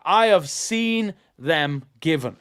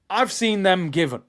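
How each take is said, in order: First: I have seen them given, each word spaced out slowly; stubborn slow emphasis on "I have seen"; slow, deliberate restatement. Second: Said in the usual way. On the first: Shown as a demonstration. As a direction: lay it down word by word like a verdict. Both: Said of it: "Let me just say that".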